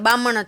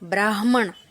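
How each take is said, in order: First: The r and h sounds are dropped. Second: The h, m and n sounds are all pronounced. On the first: The speaker calls it wrong. "બામણ જ થઈ" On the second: The speaker calls it right. "હ મ ણ બોલાય"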